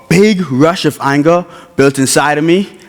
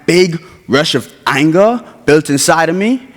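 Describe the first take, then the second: No difference in how they are said.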